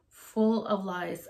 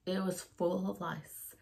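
First: "Full" drawn out and leaned on; emphatic slow repeat of "Full of lice"; slow stress on full. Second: Said in the usual way. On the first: Real, not acted. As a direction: say "Full of lice" slowly, weighting "Full".

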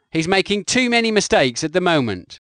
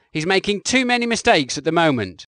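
No difference in how they are said.

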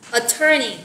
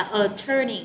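First: Attorney with the stress on the second syllable, a-TTOR-ney. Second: Attorney said slowly, stress on TTOR; stress second syllable. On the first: Teacher modelling Attorney for the class, stress on syllable two. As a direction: lean on the middle syllable of Attorney. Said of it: "Từ này mình nhấn ở âm số hai". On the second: Teacher repeating attorney for students, middle syllable stressed. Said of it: "Mình đọc là attorney". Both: Shown as a demonstration.

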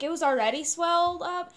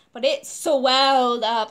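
First: Said in the usual way. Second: "swelled" loud and drawn out; emphatic contrast. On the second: Real, not acted. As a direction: stretch "swelled" wide and hit it hard. Emphasizes how much worse it got.

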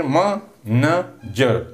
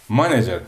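First: "manager" slowly, in three separate beats; split into syllables. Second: Said in the usual way. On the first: Shown as a demonstration. Teacher counting three syllables for students, "manager" slowly broken up. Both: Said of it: "There are three syllables".

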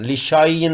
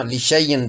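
First: लिशायन with a long aa; wrong reading. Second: लिशैयन with ai, no long aa; correct reading. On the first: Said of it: "नहीं पढ़ना". (लिशायन गलत, लंबा आ) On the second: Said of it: "पढ़ना है". (लिशैयन सही, ऐ के साथ) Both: Shown as a demonstration.

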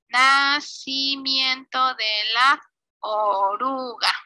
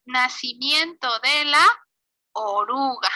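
First: "nacimiento de la oruga" stretched out slowly; slow dictation. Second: Said in the usual way. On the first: Real, not acted. Teacher writing the caption for pupils, slow dictation. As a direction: draw each word out at typing speed.

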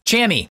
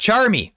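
First: "Chammy" said with no R; missing R. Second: Said in the usual way. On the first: Shown as a demonstration. Gamer joking about Charmy's name, "Chammy" without its R. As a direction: drop the R, saying "Chammy". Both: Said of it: "I think we're missing an R".

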